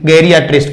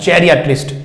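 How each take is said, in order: First: The word begins with a hard G sound. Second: The word begins with a J sound. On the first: The speaker calls it wrong. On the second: The speaker calls it right.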